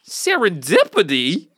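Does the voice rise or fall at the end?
rise. It is said like a question, rising.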